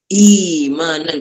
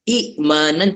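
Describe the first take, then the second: First: The catch becomes a long i vowel instead. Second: A glottal catch is heard before the m. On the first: "Yang kedua mudah" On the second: "Hamzah kedua tu mati"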